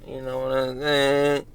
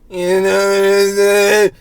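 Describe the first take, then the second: First: Said in the usual way. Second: Drawn out, high and loud; loud catchphrase. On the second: Pretend. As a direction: blow up the catchphrase, slow and loud. Repeats catchphrase, blown up.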